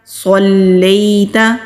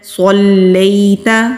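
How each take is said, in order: First: The first S is a heavy, emphatic S. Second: The first S is a heavy, emphatic S.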